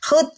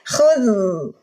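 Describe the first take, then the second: First: The final consonant is cut off with a hard stop. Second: The final consonant flows softly with continuing air. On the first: The speaker calls it wrong. "jangan dibunyikan hud ... salah teman-teman, itu siddah" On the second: The speaker calls it right. "huruf zal rohwah, jadi harus khudh"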